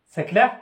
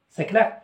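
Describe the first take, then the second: Both takes have the same delivery.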